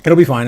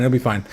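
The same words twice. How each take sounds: First: Said in the usual way. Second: A quiet, lower second take; softer echo. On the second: Shown as a demonstration. Streamer reassures the chat, then softly echoes it. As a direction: repeat it lower and softer, to yourself.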